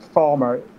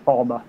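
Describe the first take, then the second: First: It is said with the R pronounced. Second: It is said without the R sound.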